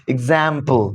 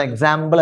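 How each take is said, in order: First: Teacher's clean model of എക്സാമ്പിൾ; correct English way. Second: എക്സാമ്പിൾ said the local way, with eks and a short a; the usual Malayali version of എക്സാമ്പിൾ; mock the common mistake on എക്സാമ്പിൾ; wrong Malayalam way. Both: Shown as a demonstration. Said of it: "അല്ലാതെ എക്സാമ്പിൾ അല്ല".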